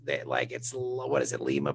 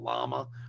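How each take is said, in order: First: The name is said the usual way. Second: The name is said the local way. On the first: This is the name of the city in Peru. "instead of Lima, Lima, Peru?" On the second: This is how the town in Ohio is called. "They call it Lama or something"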